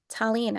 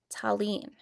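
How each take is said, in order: First: The name is said at normal speed. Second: The name is said slowly and drawn out.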